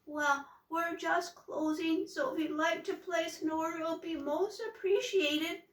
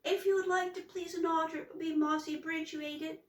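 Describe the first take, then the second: First: High, wobbly, nervous voice; shaky with fear, pitched up; trembly voice. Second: High, fast, tongue-tied fright; words tumbling out nervously; flustered. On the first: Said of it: "In a trembly, wobbly voice". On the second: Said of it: "it came out all upside down". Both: A narrator's reading.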